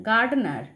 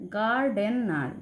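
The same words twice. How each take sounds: First: Said in the usual way. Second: গার্ডেনার drawn out slowly, each of its three syllables apart. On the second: Shown as a demonstration. (গার্ডেনার ধীরে ধীরে syllable ভেঙে বলা) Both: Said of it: "দেখো তিনটে রয়েছে".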